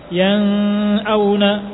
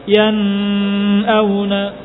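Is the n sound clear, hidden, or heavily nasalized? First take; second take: hidden; nasalized. First: The n is blurred and barely articulated. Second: The n carries a long, heavy nasal hum. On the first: "atau dibaca samar seperti ikhfa" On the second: "Maka jangan dibaca yan auna"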